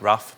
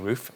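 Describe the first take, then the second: First: The vowel is short, as in 'stuff'. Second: The vowel is long, as in 'proof'. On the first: The speaker calls it wrong. "I've just always been somebody that's calling it rough" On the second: The speaker calls it right. "it should be roof"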